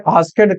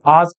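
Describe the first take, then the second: First: "आस्केड" with an extra syllable, as-ked; mispronounced asked. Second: "ask" as one syllable; correct pronunciation. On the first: Teacher mimicking students' mistake, "आस्केड" wrongly in two syllables. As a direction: sound out the silent E in "आस्केड". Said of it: "कुछ बच्चे आस्केड कह देते हैं". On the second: Teacher showing students the right way, "ask" in one syllable. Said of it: "ask ही इसको pronounce करिएगा". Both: Shown as a demonstration.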